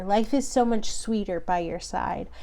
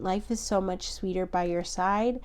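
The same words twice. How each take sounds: First: Said in the usual way. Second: Softer, inward repeat of the message; softer channelled echo. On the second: Real, not acted. Reader echoing a channelled message, softer and inward. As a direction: hear it and echo it quietly.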